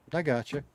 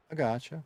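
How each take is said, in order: Both takes have the same delivery.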